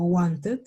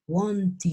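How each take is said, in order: First: "wanted" ending in a full "-et", read as written; Spanish-style wrong ending. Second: "wanted" said slowly with an "-id" ending; careful model "wanted", ending like "id". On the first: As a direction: say "wanted" with a Spanish E in the last syllable. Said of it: "yo ya no digo". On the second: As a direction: say "wanted" as "wan-tid", short I in the last syllable. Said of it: "se va a pronunciar como una I D". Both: Shown as a demonstration.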